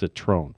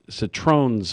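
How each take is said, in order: First: The word ends without an s sound. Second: The word ends with an s sound. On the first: The speaker calls it right. "I'll make sure that from now on I pronounce it correct. It's Citrone" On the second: The speaker calls it wrong. "I was saying Citrones with an S"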